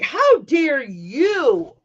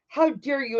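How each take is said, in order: First: Slow, louder, every word leaned on; indignant retort. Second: A hint of a scolding mom; mother scolding. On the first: Retold or imitated. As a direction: throw it back at her, outraged. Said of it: "And I'm like". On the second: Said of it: "Or she's like".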